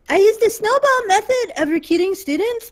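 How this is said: It is read in a put-on, exaggerated voice.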